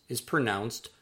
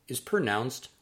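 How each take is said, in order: Both takes have the same delivery.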